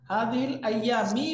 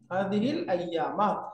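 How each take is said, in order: First: The last word ends with an 'i' vowel. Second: The last word ends with an 'a' vowel. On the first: The speaker calls it wrong. "বলা যাবে না" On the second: The speaker calls it right. "শুদ্ধ কি মা"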